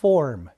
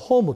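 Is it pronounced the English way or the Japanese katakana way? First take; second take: English; Japanese. First: It is said with English-style pronunciation. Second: It is said with Japanese katakana-style pronunciation. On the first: The speaker calls it right. "O からR に変化しますね" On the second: The speaker calls it wrong. "日本ではホームとか言いますでしょ。ホームだと通じないんですね"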